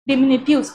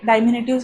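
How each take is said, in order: First: The first syllable is said with a short 'dih'. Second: The first syllable is said with a long 'dye'. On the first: The speaker calls it right. "डिमिनिटिव्ह असा हा शब्द आहे" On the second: The speaker calls it wrong. "डायमिनिटिव्ह हा शब्द नाही आहे"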